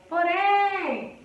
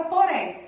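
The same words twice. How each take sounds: First: "Porém" with a high, drawn-out RÉM; stress on last syllable. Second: Said in the usual way. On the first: Shown as a demonstration. Teacher showing the última sílaba forte, "Porém" with RÉM high and held. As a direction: lift and stretch the RÉM of "Porém". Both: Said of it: "a última sílaba forte".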